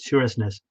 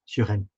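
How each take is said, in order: First: Every letter is sounded, including the s sounds. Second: The s sounds inside the name are silent. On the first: "If you look at it"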